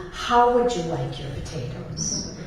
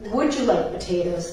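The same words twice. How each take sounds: First: "How" stressed, tune rising through "potatoes". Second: "Would" leads as a plain yes-or-no question; stress on would. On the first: Joking about Irish hosts, weight on "How". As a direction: land on "How" as if the answer is obvious. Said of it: "They ask you". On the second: Joking about Irish hosts, weight on "Would". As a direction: ask "Would you like potatoes?" with the weight on "Would". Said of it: "they don't ask you". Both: Retold or imitated.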